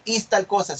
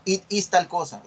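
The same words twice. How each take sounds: First: Bare IS opening, with no IT before it; wrong model sentence. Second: IT clearly placed before IS; corrected model sentence. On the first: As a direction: start straight on IS, as the mistake. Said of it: "No, no dice". (ejemplo incorrecto, empieza con IS) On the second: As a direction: begin with a distinct IT, then IS. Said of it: "En inglés hay que poner it". (ejemplo corregido, IT delante de IS) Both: Shown as a demonstration.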